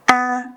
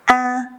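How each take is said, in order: First: The pitch stays high and level. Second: The pitch stays high and level.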